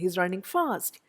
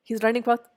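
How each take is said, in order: First: The adverb fast is clearly stressed. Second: The adverb fast is not stressed. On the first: The speaker calls it right. "That is also stressed in spoken English" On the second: The speaker calls it wrong. "എന്നല്ല ഞാൻ പറഞ്ഞത്"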